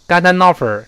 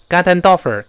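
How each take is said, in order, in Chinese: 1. 被连接的音要用力推出来。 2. 被连接的音要用力推出来。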